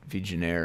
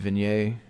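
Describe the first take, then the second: First: The G sound is clearly pronounced. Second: The G sound is left silent.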